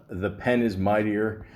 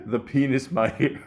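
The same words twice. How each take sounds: First: Said in the usual way. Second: "penis" run together as one word, said like "PEE-nis"; misread as penis. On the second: Retold or imitated. Connery misreading the category on the board. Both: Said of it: "he rereads it as".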